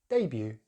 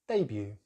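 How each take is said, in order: The two takes are said the same way.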